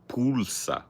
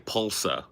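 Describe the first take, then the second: First: The first vowel is a rounded ooh sound. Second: The first vowel is a plain American sound. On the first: "you do a little rounded ooh with the U" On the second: "if I was just pronouncing that in Americanized English"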